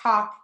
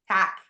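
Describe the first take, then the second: First: The word is said like 'talk'. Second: The word is said like 'tack'. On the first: The speaker calls it wrong. "not talk" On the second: The speaker calls it right.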